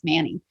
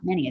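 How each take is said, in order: First: The name sounds like the name 'Manny'. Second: The name sounds like the word 'many'. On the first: The speaker calls it right. "It's Manny" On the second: The speaker calls it wrong. "I kept saying Many. It's not Many"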